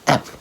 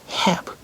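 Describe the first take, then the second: First: The word is said with a reduced vowel. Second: The word is said with a full vowel. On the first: "弱い時は" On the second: "強い時"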